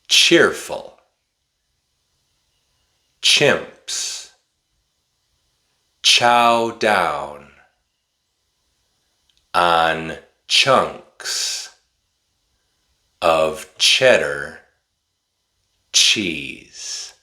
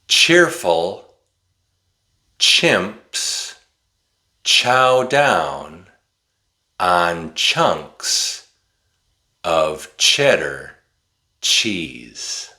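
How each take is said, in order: First: It is spoken slowly with pauses between words. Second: It is spoken at a moderate, slightly quicker pace.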